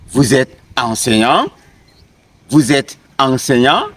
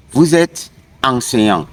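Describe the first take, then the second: First: "enseignant" swept upward as a question; rising question tone. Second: Said in the usual way. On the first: Shown as a demonstration. Teacher showing French questions by intonation, rising question tone on "enseignant". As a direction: keep statement order, raise the tone on "enseignant". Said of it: "just by raising my tone". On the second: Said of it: "These are statements".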